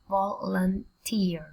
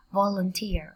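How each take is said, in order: First: Slow Volunteer in three separate pieces; syllable by syllable. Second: Said in the usual way. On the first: Shown as a demonstration. Teacher sounds out a word, slowly by syllables. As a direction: split Volunteer as vol, un, teer.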